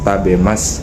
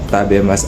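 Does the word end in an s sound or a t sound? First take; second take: s sound; s sound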